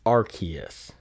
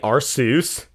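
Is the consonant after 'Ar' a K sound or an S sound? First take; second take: K; S. First: The consonant after 'Ar' is a K sound. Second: The consonant after 'Ar' is an S sound. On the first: This is the official pronunciation. "it is pronounced Arceus rather than" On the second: It is read as if it ends in Zeus. "Some people say Arceus, because I guess it looks like Zeus"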